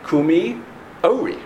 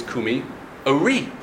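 First: Ori with a high, stressed "O"; stress on first syllable. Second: Ori with "ri" stressed; stress on second syllable. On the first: Teacher quoting Lachadodi, Ori stressed at the start. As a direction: punch the first syllable of Ori after Kumi. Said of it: "Now, the other way to pronounce the word". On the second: Teacher showing the other pronunciation, Ori stressed at the end. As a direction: land on the final syllable of Ori after Kumi. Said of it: "the other way to pronounce the word". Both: Shown as a demonstration.

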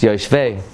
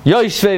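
First: "yoshvei" stressed on its last syllable; "yoshvei" with the weight on "vei"; correct stress. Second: "Yoshvei" punched high on its first syllable; "Yoshvei" with the accent wrongly up front; mispronounced stress. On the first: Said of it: "the emphasis is always on the last syllable". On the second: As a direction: say "Yoshvei" as YOSH-vei. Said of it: "There's no word yoshvei". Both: Shown as a demonstration.

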